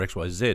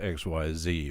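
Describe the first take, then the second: First: The last letter is said as zed. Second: The last letter is said as zee.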